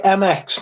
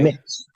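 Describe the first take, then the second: First: The name is spelled out as two letters. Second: The name is said as one word. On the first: The speaker calls it wrong. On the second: The speaker calls it right.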